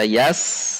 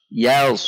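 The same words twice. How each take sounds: First: "yas" with a light thin s; wrong yas. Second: "Yaus" with a heavy s and a rounded vowel; correct yaus. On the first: Teacher warns against light yas, thin s. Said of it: "Bukan dibaca yas". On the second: Teacher models the right reading, heavy rounded yaus. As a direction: say "Yaus", darkened by the sad. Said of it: "Jadi dibaca yaus". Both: Shown as a demonstration.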